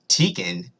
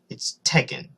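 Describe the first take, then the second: First: The first vowel is a long E sound. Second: The first vowel is a short E sound. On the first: The speaker calls it wrong. "that turns the E into a longer E" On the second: The speaker calls it right. "It's T E K K E N"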